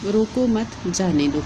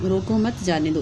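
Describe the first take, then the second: First: "रोको मत" together, break, then "जाने दो"; pause after मत. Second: "रोको मत जाने दो" in one unbroken run; no break between रोको, मत and जाने; no comma pause. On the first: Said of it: "अर्थ जो है वो अलग निकलता है". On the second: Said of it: "अगर कॉमे नहीं लगाए". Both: Shown as a demonstration.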